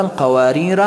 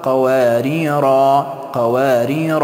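First: قواریر with short final -ra; قواریر with the alif left silent; joined reading. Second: قواریر with long final -raa; pausal reading. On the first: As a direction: end قواریر on a quick a. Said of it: "در حالت وصل". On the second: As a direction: hold the last alif of قواریر. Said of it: "اما در حالت وقف". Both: Shown as a demonstration.

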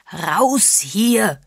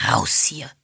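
First: Louder, higher furious roar; bellowed. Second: Hissed. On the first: Mr Parr interrupts Agatha to throw her out, bellowing. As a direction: bellow the order in a rage. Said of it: "wiederholte er brüllend". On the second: Mr Parr orders the visitors out, hissing. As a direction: hiss the order through your teeth. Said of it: "zischte Mister Parr". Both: A narrator's reading.

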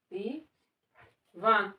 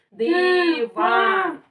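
First: Said in the usual way. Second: Loud demo. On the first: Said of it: "А громко надо казати". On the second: Shown as a demonstration. Teacher shows the child how to read it, loud and drawn out. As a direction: sound it out loudly in two long beats. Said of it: "Дивись у мене".

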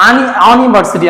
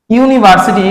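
First: আনিভার্সিটি starting on an open a; wrong pronunciation. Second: ইউনিভার্সিটি starting with a yu sound; right pronunciation. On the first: Teacher showing pupils the wrong way, open a at the start. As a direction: say আনিভার্সিটি with a bare a, no y glide. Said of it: "আমরা কিন্তু বলি না". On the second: Teacher telling pupils to listen, yu sound at the start. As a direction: begin ইউনিভার্সিটি on a clear y glide into u. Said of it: "খেয়াল করো". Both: Shown as a demonstration.

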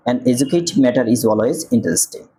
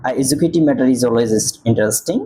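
First: Slow corrected reading. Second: Said in the usual way. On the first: Shown as a demonstration. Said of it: "এন হয়". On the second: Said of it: "এ উচ্চারণ হয়েছে".

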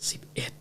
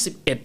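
First: Very soft, whispered ghostly count; imitated faint, voiceless count; eerie whisper. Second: Said in the usual way. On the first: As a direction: whisper it like the mysterious extra voice. Re-enacts the eerie eleventh count.

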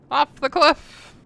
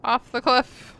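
First: "cliff" stretched slowly and loud; slow emphatic "Off the cliff". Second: Loud. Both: Real, not acted.

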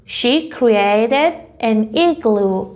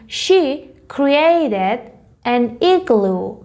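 First: She created an igloo dragged out even slower, every word clear; very slow repeat. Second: She created an igloo read very slowly, word by word; slow example reading. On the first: Teacher repeating the example sentence for students, very slow. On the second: Teacher reading the first example slowly to students. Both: Shown as a demonstration. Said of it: "مثال اول رو ببینیم".

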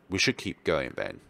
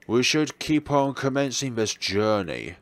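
First: Said in the usual way. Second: Mock grand rephrase. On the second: Shown as a demonstration. Reframing the trip as a noble journey, mock grand. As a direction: say it like a grand quest announcement.

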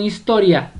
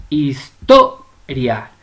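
First: Said in the usual way. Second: "historia" very slow, his-TO-ria, stress on "to"; split into syllables. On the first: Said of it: "usted la va a separar". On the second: Shown as a demonstration. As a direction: break up "historia" slowly, pressing on "to". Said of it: "la sílaba tónica es to". ("historia" lenta, separada en sílabas, con fuerza en "to")

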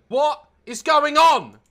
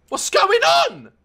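First: Said in the usual way. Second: Shouting at the game as chaos unfolds, slow shout; higher, slow shout. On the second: Real, not acted. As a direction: yell it out in disbelief. Repeated, shouted take.

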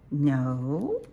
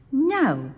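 First: Questioning mother owl. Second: Put-on high, loud childlike refusal; little owl's protest. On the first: Acted. Mommy Owl echoes her child's refusal, questioning. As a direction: ask it back, pitch sliding up. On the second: Little Owl refuses Mommy's bedtime order, high loud protest.

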